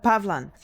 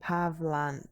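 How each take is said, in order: First: Pavlan with a louder, punched first syllable PAV-lan; stressed Pavlan. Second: Pavlan said flat, pa-vlan with no special stress; plain Pavlan. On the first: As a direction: put real weight on Pavlan. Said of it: "I'm saying it like that, but". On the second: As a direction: Pavlan as he just read it. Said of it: "I'm saying it like that". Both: Shown as a demonstration.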